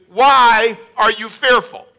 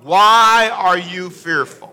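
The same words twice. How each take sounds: First: Slow, pointed "Why are you fearful?" with a bit of attitude. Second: Slow, drawn-out reading of the question; read out slowly. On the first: Retold or imitated. Disciples mimicking Jesus's question, slow with attitude. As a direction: ask it like you're put out at being woken. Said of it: "ask us with some of an attitude". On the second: Shown as a demonstration. Preacher reading scripture slowly to the congregation. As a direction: lean on "Why" and take it slowly. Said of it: "read it out loud with me".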